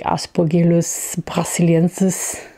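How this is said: The name is pronounced the German way.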